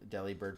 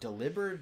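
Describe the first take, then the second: First: The name sounds like deli plus bird. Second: The name sounds like the word delivered. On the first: The name refers to a deli. "pronounced the way people normally say" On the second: The name refers to delivering things. "delivered makes a lot more sense"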